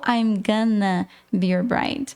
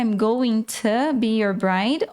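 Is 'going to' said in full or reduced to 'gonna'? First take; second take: reduced; full. First: 'Going to' is reduced to one word, 'gonna'. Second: 'Going to' is said as two full words. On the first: "Na hora de falar, você pode falar sempre o gonna" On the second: "na hora de escrever, você vai escrever going to"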